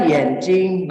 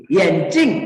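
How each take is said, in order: First: "yenjing" with "jing" held level in first tone; first tone ending. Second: "yenjing" with "jing" high and sharply falling; fourth tone ending. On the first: Teacher contrasting eye with glasses, "yenjing" ending in first tone. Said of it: "nada pertama". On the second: Teacher contrasting glasses with eye, "yenjing" ending in fourth tone. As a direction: say "yenjing", punching the last syllable high then dropping it. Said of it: "itu nada keempat". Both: Shown as a demonstration.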